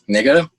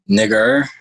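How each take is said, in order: First: The word ends in an open vowel, no R. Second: The word ends with a strong R sound. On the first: The speaker calls it right. "G D A, that's that's fine" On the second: It is not acceptable to say. The speaker calls it wrong. "you put a heavy R at the end"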